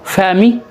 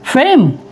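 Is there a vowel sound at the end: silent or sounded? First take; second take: sounded; silent. First: A vowel sound is heard at the end. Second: No vowel sound is heard at the end. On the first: The speaker calls it wrong. "पढ़ने में फैमी है" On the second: The speaker calls it right. "ये silent कर देंगे हम"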